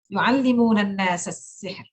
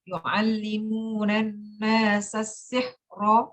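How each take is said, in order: First: It stops on the word with a thin ra. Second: It runs on with a vowel and thick ra. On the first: "Tipis itu ya, jangan sampai tebal" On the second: "waktu disambung ... harus tebal roknya"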